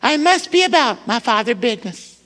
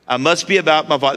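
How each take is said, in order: First: It is said in a high-pitched boyish voice. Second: It is said in a normal voice.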